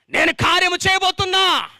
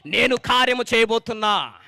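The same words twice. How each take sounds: First: Higher, louder cry of నేను కార్యము చేయబోతున్నా; shouted proclamation. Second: Said in the usual way. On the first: Shown as a demonstration. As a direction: belt చేయబోతున్నా out to the crowd. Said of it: "repeated louder". (బిగ్గరగా అరిచి ప్రకటించడం) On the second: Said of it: "repeated with shout".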